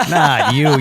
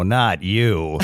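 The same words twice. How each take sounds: First: "Not you" louder and higher, pushing hard on "Not"; emphatic repeat. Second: Said in the usual way. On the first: Retold or imitated. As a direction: hit "Not" hard the second time, rising at the end. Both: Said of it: "they just were like".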